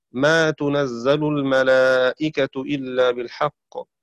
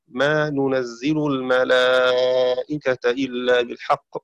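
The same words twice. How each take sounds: First: تنزل slowly recited with damma on ta and fatha on zay; "tunazzalu" for تنزل, long vowels drawn out; Shu'bah's reading. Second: ننزل slowly recited with damma on nun and kasra on zay; "nunazzilu" for ننزل, long vowels drawn out; Hafs's reading. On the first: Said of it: "قرأ شعبة بتاء مضمومة وفتح الزاي". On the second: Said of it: "وقرأ حفص بنون مضمومة وكسر الزاي". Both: Shown as a demonstration.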